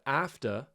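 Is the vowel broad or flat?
flat. The vowel is a flat, front a sound.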